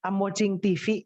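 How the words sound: The V sounds like Indonesian-accented English. The speaker calls it wrong. "Bule itu tidak pernah bilang ini seperti ini"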